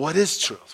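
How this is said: It is said with a weary sigh.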